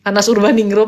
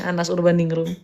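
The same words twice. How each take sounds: First: Loud call of the full name "Anas Urbaningrum". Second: Said in the usual way. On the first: Real, not acted. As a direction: call "Anas Urbaningrum" loudly to get his attention. Calling a guest to speak. (memanggil "Anas Urbaningrum" dengan keras)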